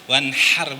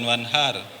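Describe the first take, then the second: First: The h is a tense sound from the throat. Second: The h is a light, breathy sound. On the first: It means to sacrifice. The speaker calls it right. "pakai H kecil" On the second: It means a river. The speaker calls it wrong. "jangan wanhar"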